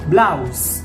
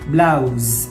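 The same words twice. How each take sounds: First: The word ends with an s sound. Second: The word ends with a z sound. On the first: "s, ข้างหลัง" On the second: "ตัว, z"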